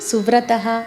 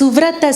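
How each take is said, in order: First: The word ends with a breathy h sound. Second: The word ends without a breathy h sound. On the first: The name is said on its own. "విడదీసి చెప్పేటప్పుడు సువ్రతః ... అని పలికాం" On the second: The name is joined with the next words. "కలిపి మనం పలికేటప్పుడు ఆ విసర్గలు ఉండవు"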